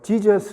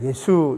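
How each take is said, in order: First: The name starts with a 'j' sound. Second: The name starts with a 'y' sound. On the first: It follows the English spelling. The speaker calls it wrong. "영어로는 이 영어는 표기가 이상해가지고 지저스 이렇게 발음을 하는데 ... 영어식 표기가 잘못된 거예요" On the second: It follows the original Greek sound. The speaker calls it right. "오히려 그냥 예수 이렇게 발음해야 돼요"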